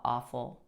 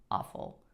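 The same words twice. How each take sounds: First: Said in the usual way. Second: Awful whispered almost without voice. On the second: Real, not acted. Recalling the awful years, she whispers it. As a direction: let the word awful fall to a breath. Repeats the word, second one whispered.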